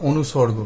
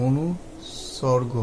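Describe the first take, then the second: First: Said in the usual way. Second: অনুসর্গ drawn out softly, part by part; slow, broken-up repeat. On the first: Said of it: "অর্থাৎ অনুসর্গ". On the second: Shown as a demonstration. Teacher repeats a new term for learners, slowly. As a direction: say অনুসর্গ very slowly, split into pieces.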